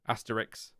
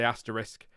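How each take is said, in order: First: The word ends with a 'ks' sound. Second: The word ends with an 'sk' sound. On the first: The speaker calls it wrong. "then I said it wrong" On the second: The speaker calls it right. "I just said it right"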